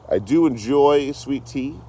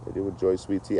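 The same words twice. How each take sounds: First: High, slow, lilting take; high sing-song. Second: Said in the usual way. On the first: Shown as a demonstration. Repeating a line about sweet tea, high and drawn out.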